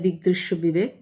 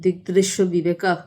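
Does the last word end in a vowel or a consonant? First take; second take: consonant; vowel. First: The last word ends on a bare consonant. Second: The last word ends with an 'a' vowel. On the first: This is the Bengali way of saying it. "বাংলায় বললে" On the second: This is the original Sanskrit pronunciation. "যদি যথার্থ উচ্চারণে বলি"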